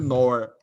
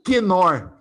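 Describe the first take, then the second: First: The initial K sound is left silent. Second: The initial K sound is clearly pronounced. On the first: This is the English way of saying it. "In English, we would say only nor" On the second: This is the Portuguese way of saying it. "the K is pronounced at the beginning of the word ... That's Portuguese"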